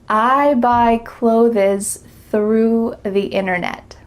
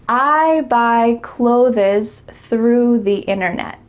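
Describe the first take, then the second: Both takes have the same delivery.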